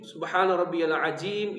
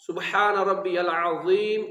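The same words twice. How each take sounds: First: العظیم said as عجیم with a j sound; wrong pronunciation. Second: Slow العظیم with a clean ظ; correct pronunciation. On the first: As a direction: demo the j mistake in العظیم. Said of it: "یہ دونوں غلط ہیں". (العظیم کو ج سے غلط پڑھیں) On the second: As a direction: model the right way, slowly. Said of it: "یہ درست ہے". (العظیم کا درست تلفظ، آہستہ) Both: Shown as a demonstration.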